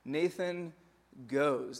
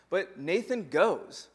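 First: Nathan, a beat of silence, then goes dropped with a falling close; pause for emphasis. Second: But Nathan goes, drawn out slowly with weight on Nathan; slow emphasis. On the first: Preacher repeating for weight, broken by a pause. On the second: Preacher stressing that Nathan obeys, slow and weighty. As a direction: lean on Nathan and let goes land slowly. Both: Shown as a demonstration. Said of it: "So that's what he does".

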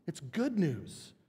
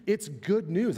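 First: Good leaned on, slower and softer; slow down and press the word good; stress on good. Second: Said in the usual way. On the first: Shown as a demonstration. Preacher repeating the gospel's meaning, stress on good. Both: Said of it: "That's what the word means".

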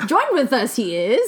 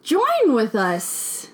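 First: Mock Yoda. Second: Very slow, drawn-out 'Join with us'; slow Yoda-ish phrasing. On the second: Acted. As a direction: stretch it out like a wise old master. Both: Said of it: "You're Yoda".

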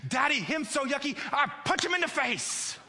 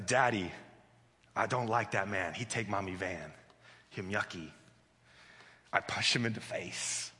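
First: Very high toddler imitation, escalating outrage; worked-up little girl. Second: Low, soft imitation of a brooding toddler; stewing little girl. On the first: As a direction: squeak out a three-year-old's threat. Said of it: "the more worked up she". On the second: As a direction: sulk it out low, as a child nursing a grudge. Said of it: "The more she stews on it".

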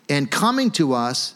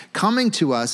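First: Said in the usual way. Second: "Coming" lifted higher and leaned on; "Coming to us" stressed, pitch up on "Coming"; dramatic emphasis. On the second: Shown as a demonstration. Preacher repeats Agabus arriving, stressing "Coming" higher. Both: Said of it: "this is so dramatic".

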